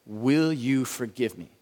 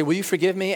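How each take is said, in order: First: Slow, deliberate plea. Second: Breezy throwaway. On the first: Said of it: "And then the last four". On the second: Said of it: "it's nice to say". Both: Shown as a demonstration.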